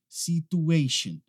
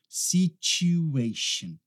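First: The syllable after 's' lacks a clear 'oo' sound. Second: The syllable after 's' has a clear 'oo' sound. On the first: The speaker calls it wrong. "o pessoal acaba falando situation" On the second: The speaker calls it right. "a gente fala U"

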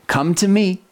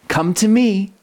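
The two takes are said the same way.

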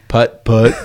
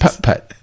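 First: The word has only a light puff of air. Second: The word has a strong, breathy puff of air.

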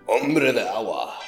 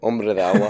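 First: It is said in a thick Mexican accent. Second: It is said in a plain accent.

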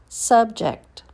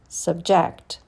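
First: The stress falls on the first syllable. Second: The stress falls on the second syllable. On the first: It is a noun. "First, you hear the noun" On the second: It is a verb. "and then the verb"

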